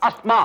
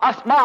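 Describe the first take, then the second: The two takes are said the same way.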